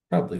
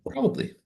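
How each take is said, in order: First: Said in the usual way. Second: A sudden squeaky high "Probably.". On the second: Pretend. Repeating the word as a joke.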